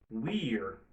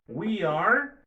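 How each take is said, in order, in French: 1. « We are » se raccourcit en une seule syllabe. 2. « We are » se dit en deux mots entiers.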